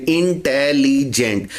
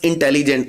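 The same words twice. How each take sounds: First: इंटेलिजेंट said slowly, syllable by syllable; slow syllable split. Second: Said in the usual way. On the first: Shown as a demonstration. Teacher showing the sound breaks in इंटेलिजेंट, slowly. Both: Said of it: "जिनकी pronunciation के दरमियान sound break होगा".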